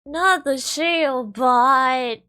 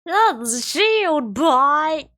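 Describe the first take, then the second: First: Slow, loud, high anguished wail; dramatic wail. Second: Slow, even louder, higher cry of despair; louder dramatic wail. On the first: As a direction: mourn it like a tragedy. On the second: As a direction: wail it as the final blow. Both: Acted. Dismayed wail at build.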